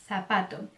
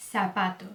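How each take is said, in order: First: Zapato starting on a lisped "th"; tongue between the teeth to begin zapato; Castilian Z. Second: Zapato starting on an S, "sapato"; Latin American S. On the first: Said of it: "Como se tivesse a língua presa". (Z de língua presa em zapato) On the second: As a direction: begin zapato with a plain S. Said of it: "você pode pronunciar como S". (Z com som de S em zapato) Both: Shown as a demonstration.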